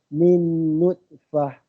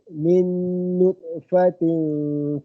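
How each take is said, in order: First: The word ends in a stopped 'h' sound. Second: The word ends in 'tin', linking onward. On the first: The reciter pauses at this word. "nak berhenti kat situ nutfah je" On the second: The reciter continues without pausing. "Sambung balik"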